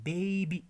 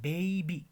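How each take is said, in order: No difference in how they are said.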